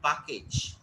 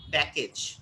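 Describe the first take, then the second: First: "package" said "pah-kage"; Indian pronunciation. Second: "package" with short "a" as in "cat"; correct pronunciation. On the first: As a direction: open "ah" in the first syllable of "package". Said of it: "not package". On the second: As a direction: say "package" as "pack-age". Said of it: "correct pronunciation would be". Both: Shown as a demonstration.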